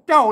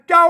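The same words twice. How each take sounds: First: It is said with the normal tho tone. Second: It is said with the special tho tone. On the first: "เจ้าเจ้านี่มันเสียงโทปกติ" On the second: "อันใส่จุดลงไปเจ้าเสียงโทพิเศษ"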